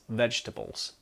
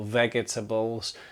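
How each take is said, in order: First: The second E is dropped, giving three syllables. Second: The second E is pronounced, giving four syllables. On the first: The speaker calls it right. "that second E, just drop it" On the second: The speaker calls it wrong. "these are not vegetables"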